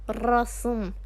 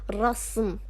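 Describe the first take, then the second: Both takes have the same delivery.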